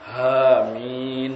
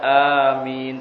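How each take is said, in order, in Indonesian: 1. Kata ini dimulai dengan bunyi h. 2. Kata ini langsung dimulai dengan vokal. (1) "tapi hamin" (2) "bukan amin"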